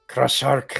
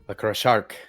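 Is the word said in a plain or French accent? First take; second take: French; plain. First: It is said in a French accent. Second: It is said in his plain accent.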